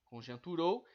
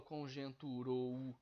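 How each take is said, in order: First: Said in the usual way. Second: Conjunturou drawn out with rou broken into ro-u; split final vowels. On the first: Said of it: "Eu não falo conjunturou". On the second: Shown as a demonstration. Teacher showing how he doesn't say it, conjunturou ending in a separate u. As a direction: pull the last o and u of conjunturou apart. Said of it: "Eu não falo".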